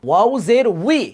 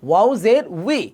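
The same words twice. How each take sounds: No difference in how they are said.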